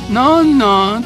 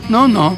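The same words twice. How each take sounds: First: It is said fully at normal loudness. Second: It is said short and quiet. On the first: "のんのんとかじゃなくて" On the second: "ちょっとピュッて短く小さい声になってんだけどね"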